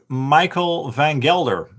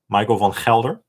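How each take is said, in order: First: The name is said with English pronunciation. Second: The name is said with Dutch pronunciation. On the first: "I'm just saying it in the English way" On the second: "which is the Dutch way or Belgian way to pronounce that"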